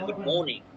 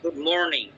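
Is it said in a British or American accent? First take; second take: British; American. First: It is said in a British accent. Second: It is said in an American accent.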